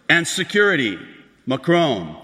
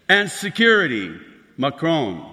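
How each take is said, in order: Both takes have the same delivery.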